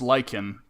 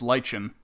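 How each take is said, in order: First: The word is said the North American way. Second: The word is said the British way. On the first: "in North America it's" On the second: "but in the U K it's"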